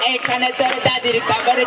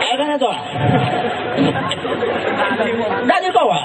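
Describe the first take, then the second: First: It is recited in an affected, camp voice. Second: It is recited in a frail, aged voice. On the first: A hijra from Arambagh is reciting. "আরামবাগের হিজড়া" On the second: An eighty-year-old man is reciting. "সে একজন বৃদ্ধ, আশি বছর বয়স হয়েছে"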